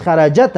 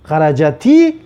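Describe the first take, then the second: First: "خرجت" said xarajat, the final t left vowelless; original sukun ending. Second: "خرجتی" as xarajati, the final ti stressed; added kasra. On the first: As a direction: finish "خرجت" crisply on t, no i. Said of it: "اصلش". («خرجت» به شکل اصلی، با تای ساکن) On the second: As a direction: add a clear long i after the t in "خرجتی". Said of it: "دو ساکن خلاص خوردن آوردگی هستیم". («خرجتی» با کسرهٔ کشیده روی تا) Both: Shown as a demonstration.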